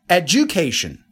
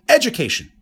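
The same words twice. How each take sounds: First: The stress falls on the second syllable. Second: The stress falls on the first syllable. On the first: "Second one" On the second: "In the first case, I put the stress on the first syllable"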